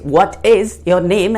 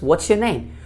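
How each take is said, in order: First: The words 'what is' are said separately. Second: The words 'what is' are contracted together. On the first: "it's what is your name" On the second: "that becomes what's your name"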